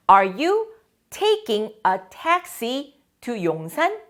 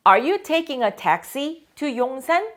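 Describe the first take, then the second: First: Are you taking the subway to school? said very slowly and clearly; slow, careful question for the class; slow model question. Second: Are you taking a taxi to 용산? said slowly again with a rising end; slow model question, repeated. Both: Shown as a demonstration. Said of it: "teacher models the question".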